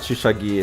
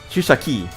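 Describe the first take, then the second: First: The last syllable starts with a g sound. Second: The last syllable starts with a k sound. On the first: The speaker calls it wrong. "It's not Shushagi" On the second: The speaker calls it right. "not Shushagi. Shushaki"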